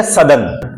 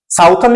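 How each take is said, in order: First: सदर्न said short, "suh-dern", no ou sound; correct pronunciation. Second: साउथर्न said with the ou of south, "south-ern"; wrong pronunciation. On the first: (सदर्न का सही उच्चारण, छोटा अ) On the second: (साउथर्न को साउथ वाली आवाज़ से गलत उच्चारण) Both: Shown as a demonstration. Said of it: "the point of pronunciation".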